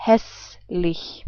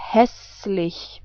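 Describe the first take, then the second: First: "Hässlich" repeated softly with an open ä; German demo repeated. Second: "hässlich" softly, with an open ä and a soft ch; German demo. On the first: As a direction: say "Hässlich" once more, clearly. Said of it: "I say it again". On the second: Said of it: "we pronounce this whole word like". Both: Shown as a demonstration.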